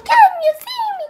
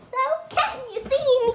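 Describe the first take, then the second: First: Much higher, louder, fast squeal; excited squeal. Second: Said in the usual way. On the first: Pretend. Girl asking viewers again, excited squeal. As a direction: squeal it at the camera.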